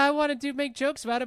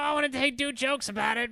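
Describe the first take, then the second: First: The voice is the speaker's ordinary natural voice. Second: The voice is strained, raspy and put-on. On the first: "I'm just gonna do it in my normal voice" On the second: "now I sound like Gilbert Godfrey"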